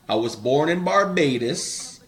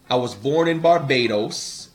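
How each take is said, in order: First: It is said in a Bajan Caribbean accent. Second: It is said in the speaker's ordinary accent.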